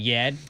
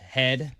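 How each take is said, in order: First: The word begins with a y sound. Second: The word begins with an h sound. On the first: "instead of saying yed" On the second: "pronounced head correctly"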